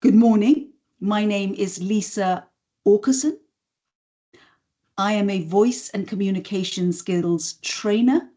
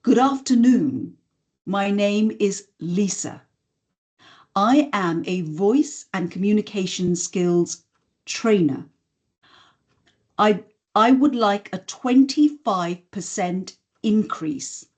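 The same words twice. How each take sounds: First: Every line ending on a rising question lilt; upspeak. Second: Falling tune closing each sentence, certain; landed statements. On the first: Coach showing the unhelpful upspeak habit. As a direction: make each statement sound like a question. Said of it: "if I were to say it like this". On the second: Coach showing confident downward inflection. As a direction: land every line with a drop. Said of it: "listen to the difference if I land it". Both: Shown as a demonstration.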